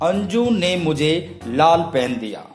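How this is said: The first word, the name, is stressed. That person and no one else gave it. "Anju को अगर मैं underline करूं, उसके ऊपर बलाघात"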